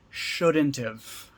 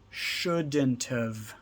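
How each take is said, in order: First: 'Have' is contracted to a short 've sound. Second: The same.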